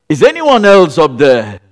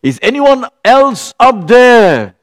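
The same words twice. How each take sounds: First: Said in the usual way. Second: Higher, louder, slow desperate call; man on the cliff calls past God, louder and slower; calling up again. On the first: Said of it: "repeated line". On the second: Retold or imitated. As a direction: drag it out, hoping someone else answers. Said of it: "he looked up again and he said".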